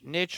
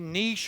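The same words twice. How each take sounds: First: The word rhymes with rich, short vowel. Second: The word has a long vowel, like neesh. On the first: "Niche rhymes with rich" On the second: "niche rhymes with riche"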